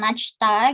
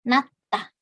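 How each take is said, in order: First: The first syllable ends in a J sound. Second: The first syllable ends in a T sound. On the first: The speaker calls it wrong. "bukan najta" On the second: The speaker calls it right. "tapi natta. Jietnya dilafalkan menjadi T"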